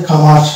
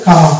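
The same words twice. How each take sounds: First: কামার ending in a clear R; American, R sounded. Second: কামা ending on an open A; British, silent R. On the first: Teacher shows American English comer, R sounded. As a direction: say কামার bringing in the final R. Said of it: "র আমাকে নিয়ে আসতে হবে". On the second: Teacher shows English comer, silent R. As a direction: say কামা without a final R. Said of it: "silent হয়ে যাবে". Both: Shown as a demonstration.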